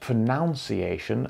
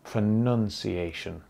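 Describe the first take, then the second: First: The second syllable sounds like 'noun'. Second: The second syllable sounds like 'nun'. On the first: The speaker calls it wrong. "It is not pronunciation, as many people say" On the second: The speaker calls it right. "The noun sound in pronounce has changed to a nun sound"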